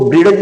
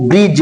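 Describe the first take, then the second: First: ब्रिज wrongly said "bri-daj", with the D sounded. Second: ब्रिज as one syllable, no separate D sound; silent D in ब्रिज. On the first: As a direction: put an audible "da" inside ब्रिज: "bri-daj". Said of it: "डा का उच्चारण नहीं करेंगे". (ब्रिज को गलत ढंग से "ब्रिडज" बोलते हुए) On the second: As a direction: say ब्रिज as "brij", skipping the D. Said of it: "इसको ब्रिज नहीं बोलेंगे". (ब्रिज में डी का उच्चारण किए बिना) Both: Shown as a demonstration.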